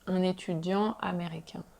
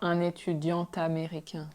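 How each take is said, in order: First: The final T stays silent before the next word. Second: The final T is linked to the next word. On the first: The speaker calls it right. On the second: The speaker calls it wrong.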